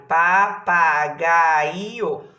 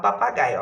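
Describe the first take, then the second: First: Papagaio very slow and loud, each syllable drawn out; loud, stretched syllables in Papagaio; syllables separated. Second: Said in the usual way. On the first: Shown as a demonstration. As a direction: punch out pa, pa, ga, i, o in Papagaio. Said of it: "Olha lá, separei". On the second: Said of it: "o tal do papagaio".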